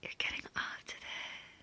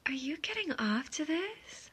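First: Soft, knowing whisper; whispered confirmation. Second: Higher-pitched teasing question. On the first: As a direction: drop to a hushed whisper. Same words as whispered confirmation. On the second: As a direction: ask it with a raised, probing lilt. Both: Acted.

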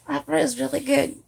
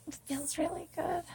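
First: Improvised Scottish accent at normal volume; attempted Scottish accent. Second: Soft, higher-pitched stab at Scottish; attempted Scottish accent. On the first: Testing a Scottish accent for listeners, firm Scottish attempt. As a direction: have another stab at Scottish, more firmly. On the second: Trying Scottish after the Irish attempt, soft Scottish accent. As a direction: try a quiet Scottish accent, raised pitch. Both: Shown as a demonstration. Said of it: "maybe I could try you doing a Scottish".

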